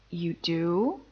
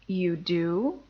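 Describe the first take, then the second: No difference in how they are said.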